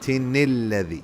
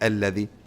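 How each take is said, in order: First: The 'a' vowel is skipped, linking straight in. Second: The word begins with a pronounced 'a' vowel. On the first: The speaker calls it right. "So you would say لمزة الذي" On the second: The speaker calls it wrong. "means you don't say الذي"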